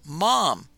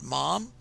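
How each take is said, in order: First: It is said loudly and forcefully. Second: It is said softly and tentatively.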